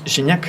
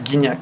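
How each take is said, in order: First: The name is said with a French pronunciation. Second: The name is said with a Spanish pronunciation. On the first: The speaker calls it right. "Gignac es Gignac" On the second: The speaker calls it wrong. "no es Guignac"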